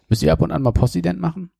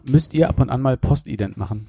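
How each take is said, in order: First: It is said fast, words run together. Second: It is said slowly, words kept apart.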